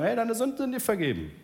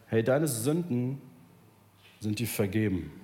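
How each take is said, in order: First: Higher, breezy throwaway tone; easy offhand line. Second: Jesus forgiving sins. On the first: Shown as a demonstration. Preacher mocks how easy the words are, breezy. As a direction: toss it off as if it costs nothing. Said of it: "Es ist wirklich einfach, jemandem zu sagen". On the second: Retold or imitated. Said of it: "Er sagt".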